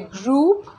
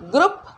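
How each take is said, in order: First: The vowel is a long oo sound. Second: The vowel is a short u sound. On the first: The speaker calls it right. "इसमें बड़ा ऊ की मात्रा लगनी चाहिए" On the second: The speaker calls it wrong. "गलती से छोटा ऊ की मात्रा लगाते हैं"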